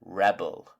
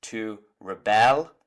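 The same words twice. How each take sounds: First: "rebel" stressed on the first syllable, REB-el, falling; noun stress. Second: Slow "rebel", rising on a stressed second syllable, re-BEL; verb stress. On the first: Teacher contrasting noun with verb, "rebel" stressed at the start. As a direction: hit REB, let the second syllable of "rebel" drop. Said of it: "the noun". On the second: Teacher contrasting verb with noun, slow "rebel" stressed on the end. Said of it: "the verb is pronounced different". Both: Shown as a demonstration.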